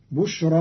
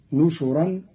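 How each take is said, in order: First: بشرا as bushran, with unvowelled shin; b reading of بشرا. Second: نشرا with u after both nun and shin; nun reading, nushuran. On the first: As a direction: say بشرا starting with bu, then sh straight into r. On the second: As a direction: say نشرا as nu-shu-ran. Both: Shown as a demonstration. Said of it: "بالنون المضمومة والشين المضمومة".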